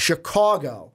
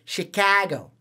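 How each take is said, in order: First: "Chicago" with a rounded "caw" middle; north side pronunciation. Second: "Chicago" with an open "ka" middle; drawn-out "Chicago", flat shi-KAH-go; local pronunciation. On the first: Host showing the cohost the north side way, "Chicago" with "caw". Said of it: "I think it's the north side that". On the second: Host showing the cohost their own way, "Chicago" with "ka". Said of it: "where ours is". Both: Shown as a demonstration.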